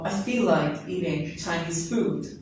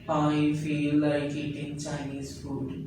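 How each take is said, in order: First: It is said lively and expressively. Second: It is said flat, without expression.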